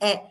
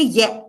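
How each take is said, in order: First: The vowel sound starts cleanly without a glide. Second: The vowel sound starts with a y glide. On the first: The speaker calls it right. "E says E" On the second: The speaker calls it wrong. "They will say ye"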